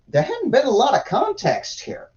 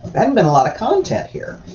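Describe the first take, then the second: First: Said in the usual way. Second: "content" stressed as the corrected word. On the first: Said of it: "did I say context?". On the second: Real, not acted. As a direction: correct yourself, leaning on "content". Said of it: "did I say context? Content".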